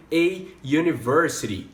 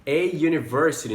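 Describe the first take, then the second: First: "a university", "university" starting with a y sound; "a" before "yoo-niversity"; "a university", slowly; model pronunciation. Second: "A university" with a y onset; "university" said as "yoo"; "A university" again; repeat model. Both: Shown as a demonstration. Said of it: "a gente vai usar".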